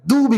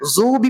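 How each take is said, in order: First: The first consonant is a plain, light d sound. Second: The first consonant is a plain z sound. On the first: "दू भी भी गलत है" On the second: "ज़ू भी भी गलत है"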